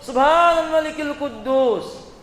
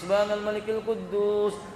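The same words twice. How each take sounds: First: It is said at the loudest volume. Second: It is said at the softest volume.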